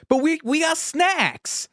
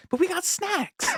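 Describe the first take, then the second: First: High, slow, pleading Boston whine; Casey Affleck impression. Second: High, strained whine; Casey Affleck impression. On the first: Quoting Casey Affleck in the back seat, high, slow Boston whine. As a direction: whine it like a kid defending the snacks. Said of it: "he just goes". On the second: Running bit with college buddies, high strained whine. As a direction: squeak it out like a kid defending the snacks. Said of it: "food came first".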